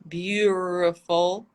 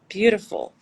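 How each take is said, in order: First: The middle consonant is a rolled Russian R. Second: The middle consonant is a quick tapped flap. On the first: The speaker calls it wrong. "If it were er, sounds odd, bizarre" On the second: The speaker calls it right. "The flap T"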